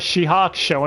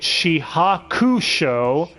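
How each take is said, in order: First: The 'u' vowel is dropped, not pronounced. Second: The 'u' vowel is clearly pronounced. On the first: This is how every other character says it. "every other character says Shihakusho and the U is silent" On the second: This is how one character says it. "he calls it Shihakusho"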